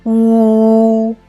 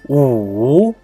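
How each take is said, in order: First: The pitch stays high and level. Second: The pitch dips down and then rises. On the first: "The first tone of U is U" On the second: "The third tone is U"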